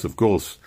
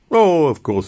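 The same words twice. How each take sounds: First: Said in the usual way. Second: A loud, high, eager reassurance; eager assurance. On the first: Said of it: "repeated assurance". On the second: Acted. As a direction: convince him you follow politics. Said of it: "eager assurance to interrogator".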